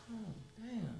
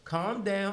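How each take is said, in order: First: Very soft, barely voiced echo; hushed, retold private reaction; under the breath. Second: Quoting a fellow inmate at normal volume; lightly acted inmate's remark; imitated inmate talk. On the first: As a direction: repeat it quietly to yourself. His own muted reaction, retold. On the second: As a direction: say it as the other inmate would. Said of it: "That's how niggas talk".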